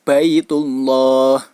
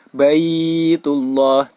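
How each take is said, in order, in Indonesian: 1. Vokal suku kata pertama tetap dibaca pendek. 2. Vokal suku kata pertama dibaca panjang. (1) "melainkan tetap dibaca pendek seperti biasa" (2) "Jadi tidak dibaca panjang. Baitullah, tidak, tidak dibaca demikian"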